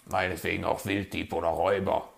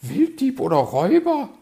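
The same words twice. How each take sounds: First: Hurried grumpy mutter; growled concession. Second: High, loud, outraged question; affronted magpie, voice way up; indignant echo. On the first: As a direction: toss it off grudgingly as a grumpy fox. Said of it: "knurrte der Fuchs". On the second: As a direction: squawk it back in disbelief. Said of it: "meinte sie entrüstet". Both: A narrator's reading.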